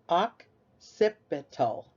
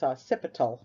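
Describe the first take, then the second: First: The word begins with an 'ock' sound. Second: The word does not begin with an 'ock' sound. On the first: The speaker calls it right. "So the O C says oc" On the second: The speaker calls it wrong. "You would think it's occipital or something, but no"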